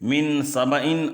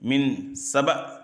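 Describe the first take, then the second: First: The word ends in an -in sound. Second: The word ends with no final vowel.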